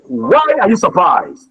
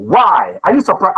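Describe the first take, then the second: First: WHY stressed, falling at the end. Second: YOU stressed, tune not falling. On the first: Teacher modelling the stress on WHY, falling. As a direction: lean on the word why. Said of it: "That's the question". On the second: Teacher contrasting the take with you stressed. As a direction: lift the word you. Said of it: "Are they the same?". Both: Shown as a demonstration.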